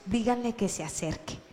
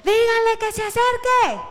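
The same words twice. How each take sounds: First: Hushed, gentle instruction; said to those nearby. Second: Very high, loud holler; exaggerated bellowed order, pitched way up; yelling. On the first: Acted. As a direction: say it softly to those closest. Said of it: "le dijo a sus más cercanos". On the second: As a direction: shout it across a crowd. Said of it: "haya pegado un grito y un alarido".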